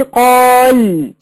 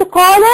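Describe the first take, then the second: First: قال drawn out very slowly, closed on l; very slow قال with no final vowel; stop with sukun. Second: قال said "qaala", short a after the lam; open-ended قال with a natural long alif; natural madd. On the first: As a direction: hold the alif long, end قال on a vowelless lam. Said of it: "لكن وقفت عند كلمة". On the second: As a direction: voice the final vowel of قال, higher and louder. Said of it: "بقى مد طبيعي". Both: Shown as a demonstration.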